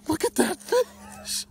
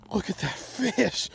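First: High, loud, slowed wonder at the catch; real awe building to a shout; louder excited awe. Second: Excited awe. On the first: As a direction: say it again, much higher and louder in disbelief. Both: Real, not acted. Admiring the big fish.

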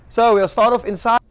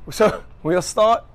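First: "So we'll start off inside" higher and louder, punchy; bright confident retake of "So we'll start"; upbeat host intro. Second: "so we'll start" slow and broken by a laugh. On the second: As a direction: giggle through "start" slowly. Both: Real, not acted. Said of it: "Okay, last time, let's do this".

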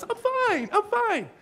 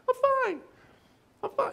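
First: Much higher squeaky "I'm fine"; squeaky Ross voice. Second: Much higher squeaky "I'm fine"; way high lying voice. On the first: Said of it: "is that squeaky voice". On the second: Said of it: "their voice goes way high". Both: Retold or imitated.

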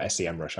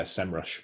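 First: S E M rush with three separate letter names; S E M rush spelled out. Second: SEMrush with SEM said as one syllable; SEMrush as one word. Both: Shown as a demonstration. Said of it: "I never know how to actually say it".

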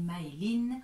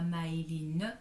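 First: "Maëline" ending on n, final e silent; correct pronunciation. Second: "Maëline" with the final e sounded, "ma-é-li-neu"; mispronunciation demo. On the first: Teacher shows what one says, silent final e. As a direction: cut "Maëline" off at the n. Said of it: "on dit Maëline". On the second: Teacher shows what not to say, final e sounded. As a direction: add an "eu" to the end of "Maëline". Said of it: "on ne dit pas". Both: Shown as a demonstration.

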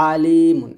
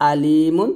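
First: আলিমুন with squeezed mid-throat ayn, loud; ayn version. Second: আলিমুন with plain glottal first vowel, loud; hamza version. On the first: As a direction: press the throat on the first vowel of আলিমুন. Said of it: "আর এটা". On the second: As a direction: start আলিমুন cleanly on hamza, no throat squeeze. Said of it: "এটা হচ্ছে". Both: Shown as a demonstration.

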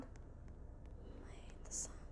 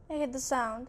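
First: Slow, very soft voiceless whisper; barely audible, drawn-out whisper; frightened whisper. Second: Said in the usual way. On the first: Real, not acted. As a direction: whisper it slowly in dread. Repeats it under breath, scared.

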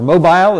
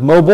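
First: "mobile" ending like "bile"; European pronunciation. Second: "mobile" ending in a weak -bul; American pronunciation. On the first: Lecturer offering Europe's version, European pronunciation of "mobile" as MOH-bile. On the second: Lecturer naming the subject, American pronunciation of "mobile" as MOH-bul. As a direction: say "mobile" the American way, rhyming with noble. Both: Shown as a demonstration. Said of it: "if you're in Europe".

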